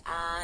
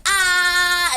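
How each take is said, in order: First: Said in the usual way. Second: High, blaring mock "ah"; wide-open loud ah. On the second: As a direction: belt it out as if opening wide. Told repeatedly to open wider.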